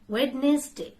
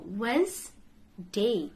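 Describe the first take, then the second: First: The D sound is pronounced in the middle. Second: The D sound is silent in the middle. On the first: The speaker calls it wrong. "I mispronounced this" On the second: The speaker calls it right. "There'll be silent D sound"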